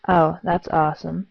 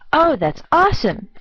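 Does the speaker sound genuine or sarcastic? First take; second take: sarcastic; genuine. First: It sounds sarcastic and unimpressed. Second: It sounds sincerely pleased and enthusiastic. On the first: The speaker thinks it is not good. "the second is not" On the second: The speaker really thinks it is good. "The first is genuinely a good thing"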